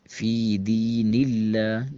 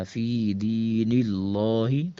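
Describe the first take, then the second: First: فی دین اللہ with a thin light lam in اللہ, drawn out slowly; teacher shows اللہ said thin after the kasra, slow and chanted; correct thin lam. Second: فی دین اللہ with a heavy, full lam in اللہ, drawn out slowly; teacher shows the mistake: اللہ said heavy; wrong heavy lam. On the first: Quran teacher demonstrating the right thin lam, slowly. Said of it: "تو یہ ٹھیک ہے". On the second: Quran teacher showing the wrong heavy lam, slowly. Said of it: "اس طرح نہیں پڑھنا". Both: Shown as a demonstration.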